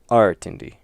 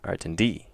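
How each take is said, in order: First: The stress is on the first syllable. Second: The stress is on the last syllable. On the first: "if they put it on the first syllable" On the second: "If it's on the last one"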